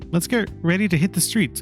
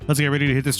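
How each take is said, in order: First: It is said in a feminine voice. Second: It is said in a masculine voice. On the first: The speaker calls it wrong. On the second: The speaker calls it right.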